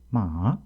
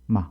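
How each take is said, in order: First: The pitch dips from mid, then rises slightly. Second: The pitch drops sharply and abruptly. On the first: "중간음에서 낮추는 높이는 것으로서" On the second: "급격히 떨어뜨리는 것입니다"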